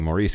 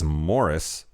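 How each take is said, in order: First: It is said like Maurice, stress on the second syllable. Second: It is said like Morris, stress on the first syllable. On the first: The speaker calls it wrong. "I kept saying Maurice because that's how it was fucking spelled" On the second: The speaker calls it right. "the generally accepted pronunciation of the book title and character is Morris"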